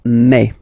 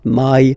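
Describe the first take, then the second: First: The vowel is a pure open e. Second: The vowel glides like English 'eye'. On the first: The speaker calls it right. "So really open e ... it's me" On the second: The speaker calls it wrong. "the English way ... So it's not my"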